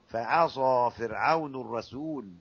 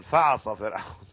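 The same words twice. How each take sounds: First: فعصى read slowly as fa-ʕasa; fa-ʕasa, slow and careful; correct reading. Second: فعصى run together as faʕsa; faʕsa as the error to avoid; wrong reading. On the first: Teacher shows students the right فعصى, slowly. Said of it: "تتلقى". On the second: Teacher imitates the wrong فعصى for students. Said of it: "لا تقل". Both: Shown as a demonstration.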